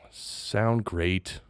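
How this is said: It is said flatly, as if bored.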